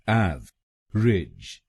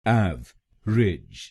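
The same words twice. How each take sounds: The two takes are said the same way.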